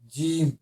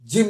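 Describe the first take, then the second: First: The vowel is held long. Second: The vowel is short and clipped. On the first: The speaker calls it right. "इसमें दीर्घी में मतलब कुछ देर रुकना है" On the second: The speaker calls it wrong. "जिम नहीं"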